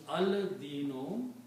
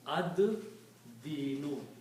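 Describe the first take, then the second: First: The l sound is pronounced before the d. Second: The l is dropped and the d is doubled. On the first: "when you put al, it will become al-dino" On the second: "you do not pronounce lam, but pronounce dal twice"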